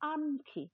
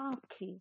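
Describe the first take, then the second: First: A full n consonant comes before the kh. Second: The first vowel is nasalized, with no n. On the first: This is the ancient form. "মানে যে একটা ন ছিল" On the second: This is the later form. "পরে এটা একটা চন্দ্রবিন্দু হয়েছে ... নাকায় নাকায় হয়েছে"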